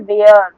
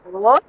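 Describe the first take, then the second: First: The vowel sounds like 'air'. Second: The vowel sounds like 'er'. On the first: The speaker calls it wrong. "बच्चे क्या पढ़ देते हैं? ... No, it is not वेयर" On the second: The speaker calls it right. "It is वर"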